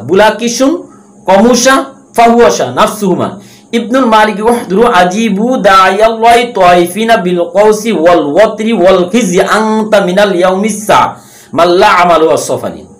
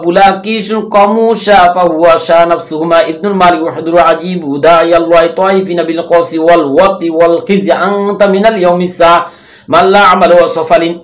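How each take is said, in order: First: It is recited slowly. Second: It is recited at normal speed.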